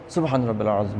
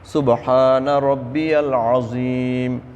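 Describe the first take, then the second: First: It is recited quickly and hurriedly. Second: It is recited slowly and calmly.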